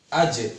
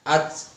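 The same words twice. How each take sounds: First: The final consonant is released with an echoing bounce. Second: The final consonant stops flat without any bounce. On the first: The speaker calls it right. "Harus ada pantulan karena huruf qalqalah itu disukun" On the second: The speaker calls it wrong. "Tidak boleh kita membacanya"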